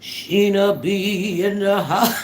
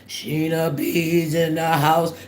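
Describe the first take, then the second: First: It is said in a robotic voice. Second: It is said in a very deep voice.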